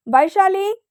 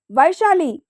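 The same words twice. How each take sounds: First: Vaishali called out high and loud, rising; calling out loudly. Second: A second louder call, falling at the end. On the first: Son calls Vaishali down, loud rising call. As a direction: shout her name up the stairs. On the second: Son repeats his call for Vaishali, loud falling shout. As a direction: call her name again, firm and final. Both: A narrator's reading. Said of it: "గట్టిగా అరిచాడు అంగద్".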